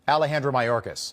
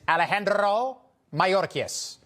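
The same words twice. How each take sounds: First: The name is said in a plain American accent. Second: The name is said in a Hispanic accent.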